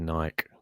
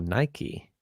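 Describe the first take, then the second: First: The brand name is said the non-American way. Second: The brand name is said the American way.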